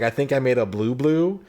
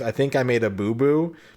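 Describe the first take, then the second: First: Boo boo begins with a bl sound. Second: Boo boo begins with a plain b sound. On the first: "because he's a vampire, he says blah. So he's like" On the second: "instead of saying"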